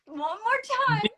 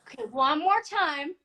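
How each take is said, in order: First: Disbelieving request to repeat, higher. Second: Disbelieving request to repeat. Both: Retold or imitated. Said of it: "And I'm like".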